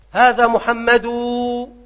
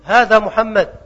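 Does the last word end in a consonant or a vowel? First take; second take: vowel; consonant. First: The name ends in a long u vowel. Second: The name ends in a bare consonant. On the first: This is the pausal form of one dialect group. "بالواو" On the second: This is the pausal form of another dialect group. "لغة ربيعة على عكسها"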